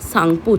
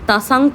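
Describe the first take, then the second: First: The word begins with an S sound. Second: The word begins with a T sound. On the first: The speaker calls it right. "আমরা সাংপো উচ্চারণ করব" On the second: The speaker calls it wrong. "তাসাংপো আমরা উচ্চারণ করব না"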